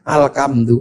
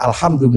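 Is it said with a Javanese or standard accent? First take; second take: Javanese; standard. First: It is said with a Javanese accent. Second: It is said with standard Arabic pronunciation.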